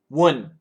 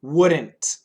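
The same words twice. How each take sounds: First: The word is said very quickly. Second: The word is said at a slower pace.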